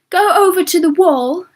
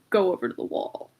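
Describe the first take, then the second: First: It is said in a put-on comic accent. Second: It is said in the plain natural accent. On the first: It is a playful, funny command. The speaker calls it right. "I start like commanding them in an accent because it sounds funnier" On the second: It is a serious, demeaning command. The speaker calls it wrong. "Because that just sounds demeaning"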